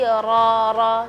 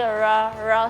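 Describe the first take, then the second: First: The r is clear, tongue touching the palate. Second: The r is muffled, tongue curled far back. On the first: The speaker calls it right. "agak uh, turun sedikit ya. Dia memang tekuk tapi tidak terlalu ke belakang" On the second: The speaker calls it wrong. "terlalu ketekuk ke belakang. Jadi uh, huruf ra-nya tidak jelas"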